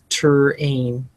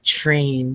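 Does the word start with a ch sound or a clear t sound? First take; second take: t sound; ch sound. First: The word begins with a clearly separated t sound. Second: The word begins with a ch-like sound. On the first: The speaker calls it right. "but it's ter-ain" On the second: The speaker calls it wrong. "A lot of kids are putting a ch like train"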